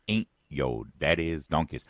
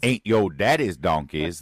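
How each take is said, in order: First: Lightly put-on Detroit accent; Kamala Harris. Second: Louder, slower put-on Detroit accent; Kamala Harris. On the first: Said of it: "in the new accent of Kamala Harris". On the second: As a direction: exaggerate the mock Detroit accent, drawn out and punched. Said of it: "That's how she talks when she's in Detroit".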